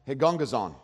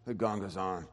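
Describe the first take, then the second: First: It is said in a normal speaking voice. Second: It is mumbled quietly under the breath.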